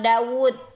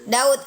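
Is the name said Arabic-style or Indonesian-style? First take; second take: Arabic-style; Indonesian-style. First: The name is said with careful Arabic articulation. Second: The name is said the plain Indonesian way. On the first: The speaker calls it right. "Cara baca yang benar Daud" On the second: The speaker calls it wrong. "Kita bacanya selama ini gini nih. Daud kan? Sama kayak bahasa Indonesia kita kan?"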